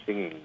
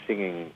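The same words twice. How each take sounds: The two takes are said the same way.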